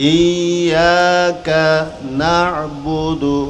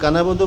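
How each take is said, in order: First: The words are kept apart with a clear break. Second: The words are run together without the break. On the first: The speaker calls it right. "ইয়াক এক শব্দ না'বুদু ভিন্ন শব্দ দুইটা পৃথক শব্দ" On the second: The speaker calls it wrong. "কানাবুদু বললে হবে হবে না"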